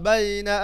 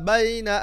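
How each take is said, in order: No difference in how they are said.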